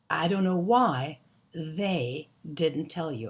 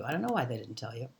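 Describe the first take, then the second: First: Slow, spaced-out teaching delivery; slow careful model. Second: Quick, low, run-together repeat; fast casual speech. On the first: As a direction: lay it out word by word, slowly. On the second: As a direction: rattle it off softly and fast. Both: Shown as a demonstration. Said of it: "we say it so fast it's hard to hear".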